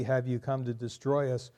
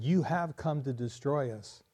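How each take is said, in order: First: "Have you come to destroy us?" said as a question. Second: "You have come to destroy us" said as a statement with a falling end. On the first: Preacher reading the verse to the congregation, as a question. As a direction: ask it as a real question. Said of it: "It can be a question". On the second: Preacher reading the verse to the congregation, as a statement. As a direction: state it as a flat fact. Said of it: "Or it could be a statement". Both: Shown as a demonstration.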